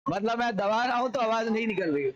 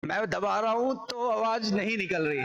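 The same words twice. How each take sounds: First: Said in the usual way. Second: Throat pressed. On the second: Shown as a demonstration. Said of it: "मैं इसको दबा रहा हूँ, देखना बाधा आएगी".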